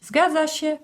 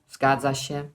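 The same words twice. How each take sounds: First: "Zgadza się?" pitched high as a question; checking question. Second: "Zgadza się" lower, as a settled statement; confirming answer. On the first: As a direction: ask "Zgadza się?" in a much higher voice. Asks, then answers herself. („Zgadza się?” wysoko, pytająco) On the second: Answers her own question. („Zgadza się” niżej, twierdząco) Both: Shown as a demonstration.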